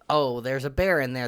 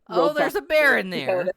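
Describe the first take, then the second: First: It is said flatly, with little energy. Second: It is said robustly, with more energy.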